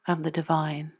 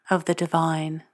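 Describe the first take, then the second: No difference in how they are said.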